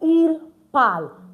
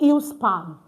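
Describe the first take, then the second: First: The s of the pronoun is silent. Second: The s of the pronoun is sounded. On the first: The speaker calls it right. "We say il parle" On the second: The speaker calls it wrong. "you don't pronounce the S here too. We don't say ils parle"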